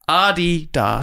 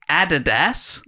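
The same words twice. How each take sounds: First: It is said the German way, first syllable stressed. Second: It is said the Australian way. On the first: The speaker calls it right. "it's pronounced Adidas. With, with emphasis on the first syllable" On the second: The speaker calls it wrong. "we say Adidas"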